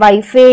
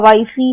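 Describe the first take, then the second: First: An extra eh vowel is sounded after the f. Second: An extra ee vowel is sounded after the f. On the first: "हमने ऐसा हम इसे नहीं पढ़ते हैं" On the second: "हमने ऐसा हम इसे नहीं पढ़ते हैं"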